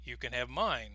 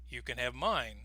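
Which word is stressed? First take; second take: mine; mine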